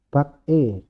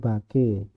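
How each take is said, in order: First: The two syllables are said apart, unlinked. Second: The consonant links into the next syllable. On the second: "jadinya bake"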